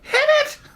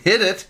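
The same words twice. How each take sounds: First: It is said in a raised, higher-pitched voice. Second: It is said in a normal-pitched voice.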